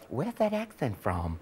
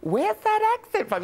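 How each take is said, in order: First: Low, soft, slow question; imitated American asker. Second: Very high-pitched repeat of the question; imitated American asker. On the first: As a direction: imitate a puzzled American quietly, drawn out. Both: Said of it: "people go".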